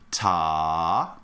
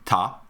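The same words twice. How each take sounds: First: The syllable is said long and drawn out. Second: The syllable is said short and clipped.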